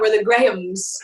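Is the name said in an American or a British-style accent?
British. The name is said in a British-style accent. This is how people abroad say the name. "but abroad we're the Grahams"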